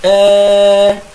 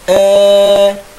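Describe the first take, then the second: First: The vowel leans slightly from a toward e. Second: The vowel leans slightly from a toward e.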